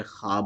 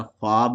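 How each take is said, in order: First: خواب said khaab, the waw silent; the correct reading خواب as khaab; correct pronunciation. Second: خواب with the waw sounded, khoab; the mistaken reading خواب as khoab; wrong pronunciation. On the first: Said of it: "بلکہ کیا بولیں گے". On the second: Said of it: "خواب نہیں بولیں گے". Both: Shown as a demonstration.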